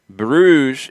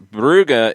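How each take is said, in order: First: The name is said with a French pronunciation. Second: The name is said with a Flemish pronunciation. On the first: "is the French pronunciation" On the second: "is the Flemish German pronunciation"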